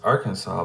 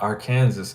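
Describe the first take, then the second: First: The ending does not sound like Kansas. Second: The ending sounds like the word Kansas. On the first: The speaker calls it right. "it's Arkansas, but it's Kansas" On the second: The speaker calls it wrong. "It's not Arkansas"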